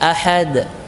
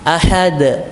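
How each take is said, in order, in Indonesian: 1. Huruf d terakhir diucapkan lemah, tanpa pantulan. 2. Huruf d terakhir diucapkan dengan pantulan kuat. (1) "Jangan ahad" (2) "ini qalqalah kubra"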